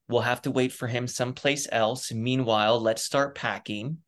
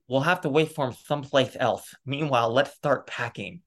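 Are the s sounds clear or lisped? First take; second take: clear; lisped. First: The s sounds are spoken clearly, without a lisp. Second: The s sounds are spoken with a lisp.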